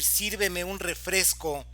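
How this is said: It is said in a firm, commanding tone. It is an order. "aquí estamos dando una orden"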